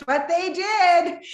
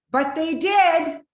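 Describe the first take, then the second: First: High, loud, slow angry retort. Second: High, loud and slow, going to her anger place; angry. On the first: Wife repeating her angry reply to the pastor's wife. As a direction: spit it out in anger. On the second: Wife snapping back at the pastor's wife in anger. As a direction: let the anger burst out, drawn out. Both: Retold or imitated. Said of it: "going to my anger place".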